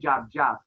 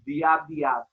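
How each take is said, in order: First: Each word starts with a 'j' sound. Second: Each word starts with a 'd' sound. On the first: This is the local everyday form. "in Trinidad we say jab jab" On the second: This is the original form. "it really is diab diab"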